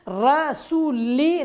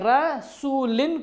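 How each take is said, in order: First: The word ends with a short 'i' vowel. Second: The word ends with an 'in' sound.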